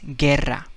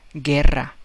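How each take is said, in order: The two takes are said the same way.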